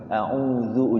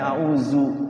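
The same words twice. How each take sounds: First: The middle consonant is a soft 'th' sound. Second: The middle consonant is a buzzing 'z' sound. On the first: The speaker calls it right. "auzu ujung lidah" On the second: The speaker calls it wrong. "Jangan sampai auzu. Kalau auzu jadi jadi zai"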